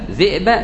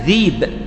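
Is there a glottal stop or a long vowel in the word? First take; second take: glottal stop; long vowel. First: A glottal stop follows the first vowel. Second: A long vowel replaces the glottal stop. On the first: "الذاء مكسورة والهمزة ساكن" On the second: "تقرأ ذيب"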